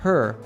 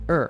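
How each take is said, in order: First: The word starts with a clear H sound. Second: The word starts without the H sound. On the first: "instead of" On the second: "we natives usually drop the first sound"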